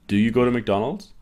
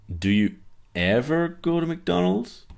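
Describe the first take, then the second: First: Said in the usual way. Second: "Do you ever go to McDonald's?" much higher, rising to the end on "McDonald's"; unsure questioning tune. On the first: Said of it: "in my tone of voice or my intonation". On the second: Shown as a demonstration. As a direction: let doubt lift the whole question up. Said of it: "You can hear in the second one, I'm not sure".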